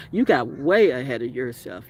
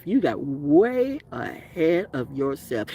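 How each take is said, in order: First: Said in the usual way. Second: Drawn out slowly, each word spelled out; slow it right down for emphasis; slow, deliberate repeat. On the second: Shown as a demonstration. Telling off a narcissist, saying it again slowly.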